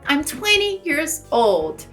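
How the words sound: An American accent with the T in twenty dropped. "E eu diria, pelo inglês americano"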